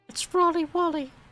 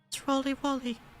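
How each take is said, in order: First: It is said in a put-on character voice. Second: It is said in a plain natural voice.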